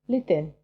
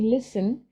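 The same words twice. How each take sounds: First: The s sound is lisped. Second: The s sound is clear and normal. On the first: "he says listen" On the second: "instead of saying listen"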